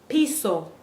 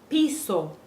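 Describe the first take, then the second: No difference in how they are said.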